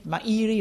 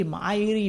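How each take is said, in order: First: "Mairi" said as "my-EE-ree"; three-syllable "Mairi", my-EE-ree; mispronounced name. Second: "Mairi" said as "MY-ree"; "Mairi" starting like the word "my"; mispronounced name. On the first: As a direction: sound out the middle I of "Mairi" as a stressed "ee". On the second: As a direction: sound out "Mairi" with a long "eye" in the first syllable. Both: Retold or imitated. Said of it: "they try to pronounce the middle I".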